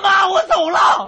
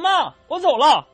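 First: It is called out with a raised voice. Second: It is called out at a moderate volume.

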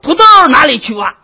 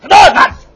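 First: It is said slowly. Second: It is said fast.

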